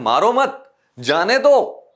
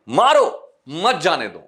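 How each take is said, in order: First: The pause comes after मत. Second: The pause comes after मारो.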